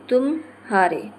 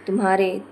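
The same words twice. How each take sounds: First: तुम हारे as two words, slowly, gap after तुम; juncture pause. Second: Said in the usual way. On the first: Shown as a demonstration. Teacher showing juncture, तुम हारे slowly split. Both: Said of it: "बीच रिक्त स्थान के कारण".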